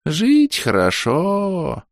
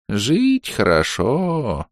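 First: Блаженно. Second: Медленно, тихо и блаженно; протяни с довольством. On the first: Дед снова блаженствует. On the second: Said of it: "блаженно сощурился дедушка". (блаженный старик, очень медленно) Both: A narrator's reading.

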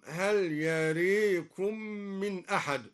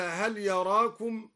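First: يريكم said as yarēkum, a bent toward e; slow, stretch يريكم with an e vowel; imala on يراكم. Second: Said in the usual way. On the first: Shown as a demonstration. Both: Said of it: "أما لا يراكم".

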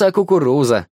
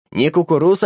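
First: "кукуруза" said fully with the final а, settling; correct word form. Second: "кукуруз" said as the vendor's wrong form, stressed and rising; wrong word form. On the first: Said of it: "не кукуруз, а кукуруза". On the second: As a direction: repeat "кукуруз" as the mistaken word. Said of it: "сколько раз говорить". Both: A narrator's reading.

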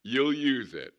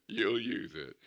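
First: Higher and louder, pressing the point; emphatic promise. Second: Said in the usual way. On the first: Shown as a demonstration. Preacher promising the church, louder. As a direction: drive it home to the congregation.

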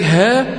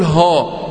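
First: ها thin and fronted, "hæ"; light ha. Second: ها thick and backed, "haw"; wrong heavy ha. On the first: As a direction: demonstrate ها without heaviness. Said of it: "وكذلك". (ها مرققة) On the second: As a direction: show the faulty heavy ها. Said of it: "ولا تقول". (ها مفخمة خطأً) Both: Shown as a demonstration.

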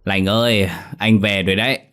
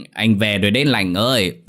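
First: Put-on drunken slurred calling. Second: Put-on louder drunken slurred calling. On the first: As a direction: slur it like a drunk. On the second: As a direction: drag out Lành ơi drunkenly. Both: A narrator's reading. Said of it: "giọng lè nhè say mềm".

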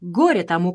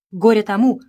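First: Said in the usual way. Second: Горе тому said louder, rising on Горе; louder second curse. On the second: Acted. Repeated curse, second take.

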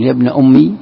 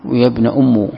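First: أمي ending in a clear "-i" sound; kasra on the mim. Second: "أم" ending in a "-u" sound; damma on the mim. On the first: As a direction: say "أمي" as ummi, with an i after the doubled m. (كسر الميم في «أمي») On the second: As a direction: say "أم" as ummu, with a u after the doubled m. (ضم الميم في «أم») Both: Shown as a demonstration. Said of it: "بكسر الميم وبضمها".

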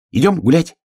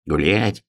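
First: High, loud rising call; eager invitation. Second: Mildly grumpy echo; grumbling. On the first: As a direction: invite your friends out with bouncy eagerness. Hare invites friends out. (высоко, задорно зовёт) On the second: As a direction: grumble the word back, much less eagerly. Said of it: "проворчал ёжик". (ворчливо) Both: Acted.

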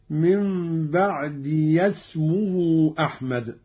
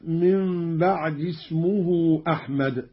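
First: Slow "بعد يسمه" as "ba'diya-smuhu"; opened possessive ya. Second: Said in the usual way. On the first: Shown as a demonstration. Teacher demonstrating Qalun's reading, "ba'diya-smuhu" joined. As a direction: give the ya a short a, linking into "يسمه". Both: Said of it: "بفتح ياء الإضافة".

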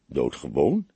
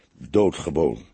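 First: "Doodgewoon" starting low and rising into a question; low, wondering "Doodgewoon" with an upturned end. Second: "Doodgewoon" low, with a falling end; low, conclusive "Doodgewoon", pitch falling; musing statement. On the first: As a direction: query "Doodgewoon" to yourself, lifting the last syllable. Same word repeated as a question. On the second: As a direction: state "Doodgewoon" in a lowered voice and close it off. Pondering a wordplay, first as statement. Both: A narrator's reading.

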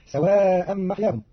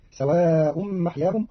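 First: Said in the usual way. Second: سواء said "sawa'un", nominative ending; damma ending. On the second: Shown as a demonstration. Teacher showing Qalun's reading, سواء ending in "un". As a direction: end سواء in "un", not "an". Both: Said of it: "برفعها".

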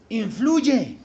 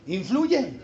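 Both takes have the same delivery.

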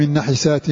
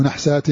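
First: "نحسات" read nahisaat, short i after the ha; kasra on the ha. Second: "نحسات" read nahsaat, no vowel after the ha; sukun on the ha. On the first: Teacher giving the first reading of the verse, "نحسات" with i after ha. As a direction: say "نحسات" in three syllables, na-hi-saat. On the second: Teacher offering the alternative reading, "نحسات" with a vowelless ha. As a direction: say "نحسات" in two syllables, nah-saat. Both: Shown as a demonstration. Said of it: "أو نحسات".

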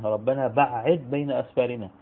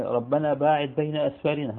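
First: "بعد" read ba''id with a doubled ain, a command; imperative reading. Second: "باعد" read bā'ada with a long a, a past verb; past-tense reading. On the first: Reading Quran recitation, command form "بعد" with a doubled ain. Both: Shown as a demonstration. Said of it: "مرة بالماضي ومرة".

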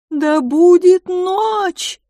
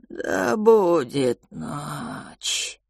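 First: High, loud, slow proclamation; booming greeting. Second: Slow hissing creature voice; whistled slow reply. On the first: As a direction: call it out like a ritual. Calix booming ritual greeting. (громкое торжественное приветствие) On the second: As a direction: whistle the words out slowly. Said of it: "просвистел". (просвистел медленно) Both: Acted.

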